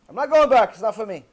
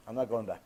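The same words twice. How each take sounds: First: Upset. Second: Low, soft retold refusal; upset, subdued. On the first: Retold or imitated. Upset student tells wife he's quitting, loud protest. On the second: Upset student refuses to return to kindergarten, subdued. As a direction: say it low, under your voice. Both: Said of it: "He got so upset".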